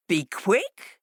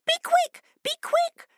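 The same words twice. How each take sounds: First: Mocking fox. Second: Much higher, louder urgent fish; fish crying urgently. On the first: Fox turning on the foolish fishes, scornful. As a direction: echo it with disdain. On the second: Fish calling to the fleeing fox, urgent and high. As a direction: hurry him along. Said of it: "cried the fish urgently". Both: A narrator's reading.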